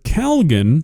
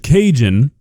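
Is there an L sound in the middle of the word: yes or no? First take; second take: yes; no. First: The word has an L sound in it. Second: The word has no L sound in it. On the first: The speaker calls it wrong. "that's two letters that don't exist in this word" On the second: The speaker calls it right. "This is Cajun seasoning"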